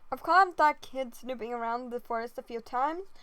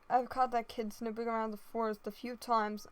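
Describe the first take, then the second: First: It is said in the speaker's natural voice. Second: It is said in a put-on character voice.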